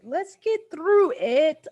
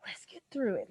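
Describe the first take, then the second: First: "Let's get through it" higher, louder and slow, forcing courage; rallying herself. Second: Tearful whisper to herself, "Let's get through it" breathed unvoiced; whispered pep talk. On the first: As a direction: say "Let's get through it" out loud, slowly, psyching yourself up. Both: Real, not acted.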